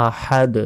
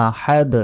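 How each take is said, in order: No difference in how they are said.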